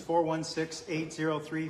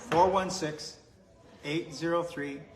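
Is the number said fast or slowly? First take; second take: fast; slowly. First: The number is said fast. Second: The number is said slowly.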